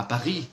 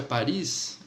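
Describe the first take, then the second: First: "Paris" said the French way, silent final s; French pronunciation. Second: Said in the usual way. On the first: Shown as a demonstration. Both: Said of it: "a, a Paris".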